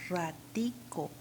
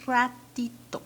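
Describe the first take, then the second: First: "Ratico" said slowly, ending in -co; Venezuelan "Ratico". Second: "Ratito" set out alone, higher and louder, ending -to; Peruvian "Ratito". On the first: Teacher repeating Venezuela's word for students, slow "Ratico" with -co. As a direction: draw out "Ratico" with a k in the last syllable. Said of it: "en Venezuela, ¿cómo lo dicen?". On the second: Teacher repeating Peru's word for students, "Ratito" with -to. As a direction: stress the "ti", end "Ratito" on -to. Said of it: "yo puedo decir, o decimos". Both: Shown as a demonstration.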